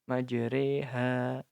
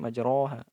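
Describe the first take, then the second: First: The vowel after r is tilted toward 'e'. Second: The vowel after r sounds like a full 'o'. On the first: The speaker calls it right. "dimiringkan ke kasroh. Jadi bacanya re" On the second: The speaker calls it wrong. "harusnya majroha"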